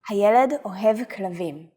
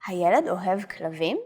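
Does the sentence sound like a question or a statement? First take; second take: statement; question. First: It is said with plain statement intonation. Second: It is said with question intonation. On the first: It tells that the boy loves dogs. "The normal sentence is" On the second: It asks whether the boy loves dogs. "The question is"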